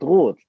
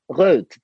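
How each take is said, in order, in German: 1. Der Vokal ist ein hinteres, gerundetes 'o'. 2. Der Vokal ist ein vorderes, gerundetes 'ö'. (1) "anstatt Rot" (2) "es hat immer Röd gesagt"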